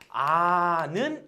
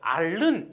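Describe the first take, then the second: First: The L sound of the stem is dropped. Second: The L sound of the stem is kept. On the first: The speaker calls it right. "그래서 아는 이렇게 된 거고요" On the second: The speaker calls it wrong. "앓는 이렇게 발음하면 조금 힘들잖아요"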